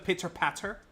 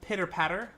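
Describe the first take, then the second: First: The t sounds crisp and clearly released. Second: The t sounds soft, almost like a d. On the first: "as opposed to" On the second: "with the soft T that's almost like a D"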